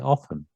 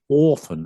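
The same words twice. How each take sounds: First: It is said in a modern standard accent. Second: It is said in an old upper-class accent. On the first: This is the form dictionaries use. "they say often" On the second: This is not the form dictionaries use. "They don't say often"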